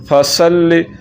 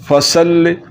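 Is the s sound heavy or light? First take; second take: light; light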